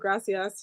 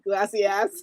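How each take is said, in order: First: The second consonant is an R sound. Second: The second consonant is an L sound. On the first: "instead of saying gracias" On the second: "she says glassy glacias"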